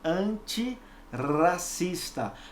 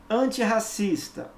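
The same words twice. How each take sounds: First: The middle R is a light single tap. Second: The middle R is a strong throaty sound. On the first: The speaker calls it wrong. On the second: The speaker calls it right.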